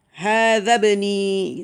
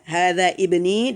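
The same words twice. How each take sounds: First: "Hadza bni" with the i of ibni dropped, slow and careful; slow model reading "Hadza bni", the hamzah silent; hamzah wasol elided. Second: "Hadza ibni" with a clear i before bni; full-spelled "Hadza ibni", every letter read; with the i pronounced. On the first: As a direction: say "Hadza bni" running straight into the b, no i sound. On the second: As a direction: say "Hadza ibni" sounding the initial i of ibni. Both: Shown as a demonstration. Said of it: "kalau hamzah wasol itu jadinya hadza bni".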